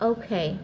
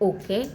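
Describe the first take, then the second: First: The first vowel glides from o to u. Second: The first vowel is a plain short o. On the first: The speaker calls it right. "কিছু কিছু word ও এর original সাউন্ডটাই হয়ে থাকে" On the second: The speaker calls it wrong. "এভাবে ভুল উচ্চারণ করে থাকতাম"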